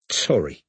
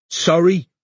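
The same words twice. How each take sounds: First: Gasped. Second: Gruff. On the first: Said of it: "gasped the dark-haired woman". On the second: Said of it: "he said gruffly". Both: Acted.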